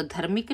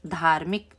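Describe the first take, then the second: First: धर्मिक with a short first vowel, dhar-mik; गलत उच्चारण धर्मिक; wrong form, short a. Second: धार्मिक with a long aa in the first syllable, dhaar-mik; सही उच्चारण धार्मिक; correct form, long aa. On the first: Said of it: "धर्मिक नहीं बोलते ना". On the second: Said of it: "इसमें भी आ की मात्रा लग गई". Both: Shown as a demonstration.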